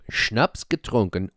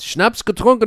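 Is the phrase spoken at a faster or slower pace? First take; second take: slower; faster. First: The phrase is spoken at a slower pace. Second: The phrase is spoken at a quicker pace.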